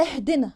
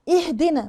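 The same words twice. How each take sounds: First: "اهدنا" starting on a slack eh; wrong first vowel. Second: "اهدنا" starting on a clean i; clear kasra. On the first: Teacher shows the mistake, vowel slackened. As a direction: let the first i of "اهدنا" open toward e. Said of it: "غلط". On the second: Teacher models the word, clear first vowel. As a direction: begin "اهدنا" with a true ih. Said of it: "كسر ال-، الهمزه كويس". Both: Shown as a demonstration.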